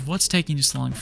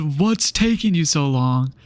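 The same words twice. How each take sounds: First: Said in the usual way. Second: Slow, drawn-out mocking quote; mock impatience. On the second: Student mimicking examiner at stop sign, mock impatient. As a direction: stretch every word in exaggerated impatience. Indignant repeat of examiner's question.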